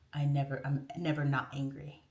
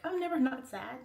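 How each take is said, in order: First: Low, understated confession; Hulk. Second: Said in the usual way. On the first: Retold or imitated. The Hulk explaining how he controls it, low-voiced. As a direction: say it low, as a hero admitting his secret. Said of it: "It's kinda like the Hulk". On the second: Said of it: "So I'm like".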